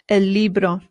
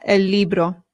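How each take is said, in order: No difference in how they are said.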